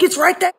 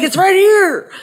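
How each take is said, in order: First: High squeaky mock reply; imitating herself, pitched way up; mock insistent. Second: High squeaky mock insistence; imitating him pointing, pitched way up; mock insistent. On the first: Her own retort in the spat, high and squeaky. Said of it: "I'm like". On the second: Mimicking her husband's insistence, high and squeaky. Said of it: "He's like".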